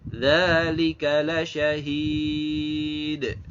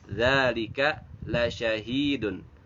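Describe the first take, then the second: First: The last word stops on d, vowel before it long. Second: The last word ends with the full -dun ending. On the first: "Maka dibacanya adalah dzalika lasyahid. Nah, dipanjangkan ya" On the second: "di teksnya itu kan dzalika lasyahidun"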